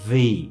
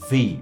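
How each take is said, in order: The two takes are said the same way.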